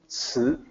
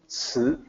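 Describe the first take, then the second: First: It is said with a native Mandarin sound. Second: The same.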